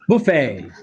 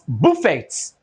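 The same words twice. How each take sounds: First: The final t sound is silent. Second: The final t sound is pronounced. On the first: The speaker calls it right. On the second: The speaker calls it wrong.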